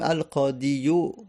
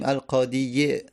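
First: The word ends in a short u vowel. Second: The word ends in a short i vowel. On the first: "یا دمه بر اون عرب میگه سنگینه" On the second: "یا کسره بر اون سنگینه"

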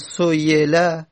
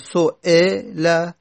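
First: The glottal stop is replaced by a y sound. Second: A full glottal stop is pronounced in the middle. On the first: "نه همزه رو تلفظ نزنیم اصلا، بیا تبدیل بکنیم" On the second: "نه همزه رو کامل تلفظ میزنیم"

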